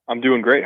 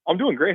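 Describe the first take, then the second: First: It sounds flat and serious. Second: It sounds upbeat and cheerful. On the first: The speaker calls it wrong. "You sound very serious" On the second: The speaker calls it right. "See, that was really fun"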